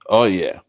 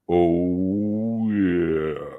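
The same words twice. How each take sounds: First: It is said in his normal voice. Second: It is said in a put-on character voice.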